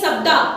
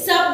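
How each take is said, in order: First: The word ends with an added 'a' vowel. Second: The word ends in a consonant sound. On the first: The speaker calls it wrong. "तो बोल दिए शब्दा ... ये गलत है" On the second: The speaker calls it right. "शब्द है"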